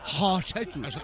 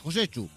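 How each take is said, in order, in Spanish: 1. Se dice el nombre con una J aspirada. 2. Se dice el nombre con un acento que suena vasco. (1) "Con la J aspirada" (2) "me ha salido acento vasco"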